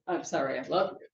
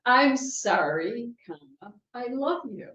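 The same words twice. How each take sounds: First: "I'm sorry I love you" run together, lower; quick "I'm sorry I love you" with no break; no pause. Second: "I'm sorry" drawn out slowly, then a pause; slow "I'm sorry", a break, then "I love you"; pause after sorry. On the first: Preacher showing the apology without a comma, run together. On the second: Preacher showing the comma in an apology, slow and paused. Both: Shown as a demonstration. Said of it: "Without the comma".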